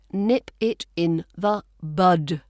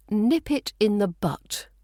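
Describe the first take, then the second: First: Slow, spaced words ending on "bud"; "bud" with a clear voiced d; correct word BUD. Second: "butt" ending in a crisp t; wrong word BUTT. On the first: Teacher correcting learners, slow with a clear d in "bud". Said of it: "So the correct phrase". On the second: Teacher quoting a common mistake, crisp final t in "butt". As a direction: say "butt" with a short vowel and t. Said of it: "not butt". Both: Shown as a demonstration.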